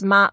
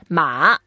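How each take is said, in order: First: The syllable has a high level tone. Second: The syllable has a low dipping tone. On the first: It means mother. The speaker calls it wrong. "don't say ma, because ma, first tone, that means your mother" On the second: It means horse. The speaker calls it right. "The third tone ... So we say horse, ma"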